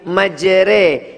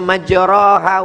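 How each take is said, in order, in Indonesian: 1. Vokal setelah r condong ke arah 'e'. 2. Vokal setelah r adalah 'a' terbuka. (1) "tapi majre, miring, condong" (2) "Dia tidak dibaca majraha"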